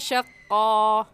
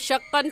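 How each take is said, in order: First: The word ends with a long 'a' vowel. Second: The word ends with the syllable 'an'. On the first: The speaker calls it right. "बल्कि कहेंगे शक्का" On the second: The speaker calls it wrong. "ऐसे नहीं रुकेंगे"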